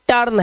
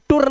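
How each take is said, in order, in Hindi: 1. स्वर की ध्वनि her में er जैसी है। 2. स्वर की ध्वनि put में oo जैसी है। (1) "ये टर्न है" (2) "इसे टुर्न नहीं पढ़ देना कहीं"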